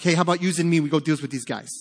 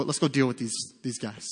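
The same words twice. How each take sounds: First: Lightly put-on Brooklyn accent, a bit louder at first. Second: Said in the usual way. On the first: Preacher voicing Jonathan rallying his armor bearer, hammy Brooklyn accent. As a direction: attempt a bad Brooklyn accent. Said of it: "sounding like he's from Brooklyn".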